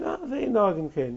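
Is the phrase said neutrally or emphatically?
neutral. The phrase is read in a plain, neutral tone. It is simply not the custom. "it depends the tone with which you read it"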